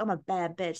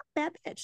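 First: It is said in a rough, tough way. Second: It is said in a confident, sassy way.

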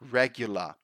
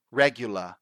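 The two takes are said the same way.

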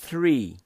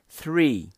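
First: It begins with a soft th sound. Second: The same.

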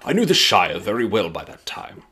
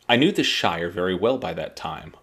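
First: It is read in a put-on Gandalf voice. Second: It is read in the reader's normal voice.

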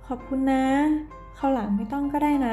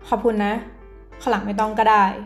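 First: It is said in a soft, gentle tone. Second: It is said in a harsh, curt tone. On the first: The speaker is grateful and does not want to impose. "พูดด้วยความนุ่มนวลนอบน้อม" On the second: The speaker is annoyed and rejects the favor. "น้ำเสียงกระแทกห้วนๆ"

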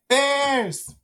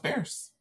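First: It is said excitedly, with exclamation. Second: It is said flatly, without excitement.

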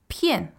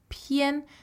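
First: The syllable has a sharp falling fourth tone. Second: The syllable is light with a neutral tone. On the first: "fourth tone" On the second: "a neutral tone, but usually accompanied with an 儿化"

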